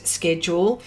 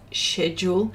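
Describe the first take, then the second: First: "schedule" starting with a hard SK sound. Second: "schedule" starting with a soft SH sound. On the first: Host showing how other parts say it, schedule with SK. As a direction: say "schedule" as SKED-yool. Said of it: "and other parts say". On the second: Host showing how some parts of the world say it, schedule with SH. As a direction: say "schedule" as SHED-yool. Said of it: "some people say schedule". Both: Shown as a demonstration.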